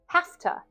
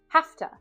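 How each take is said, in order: The two takes are said the same way.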